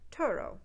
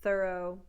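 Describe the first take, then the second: First: It begins with a hard t sound. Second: It begins with a soft th sound.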